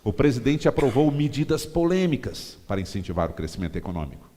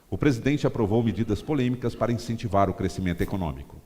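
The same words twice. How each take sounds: First: The words "medidas polêmicas" are stressed. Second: No word is stressed; the reading is neutral. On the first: It appeals to opponents of the president. "você dá ênfase nas medidas polêmicas" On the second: No point of view is pushed. "eu li a frase sem dar ênfase em palavra nenhuma"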